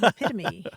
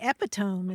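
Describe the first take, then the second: First: It is pronounced in the usual spoken way. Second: It is pronounced the way it is spelled. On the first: The speaker calls it right. "instead of epitome" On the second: The speaker calls it wrong. "I used to say epitome"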